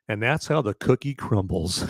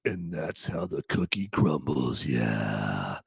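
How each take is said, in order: First: Said in the usual way. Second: Low, slow, quiet tough-guy voice; badass delivery. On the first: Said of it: "he's gotta say it better than that". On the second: Shown as a demonstration. Showing how a badass says the movie line, low slow cool. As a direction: drop it deep and drag it out like a badass. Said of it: "that's how a badass says it".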